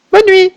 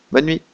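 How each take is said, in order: First: Put-on high childlike goodnight; little girl goodnight. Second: Said in the usual way. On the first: The little girl saying goodnight, childlike high voice. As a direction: say it as a sleepy small girl.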